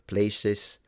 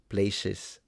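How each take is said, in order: No difference in how they are said.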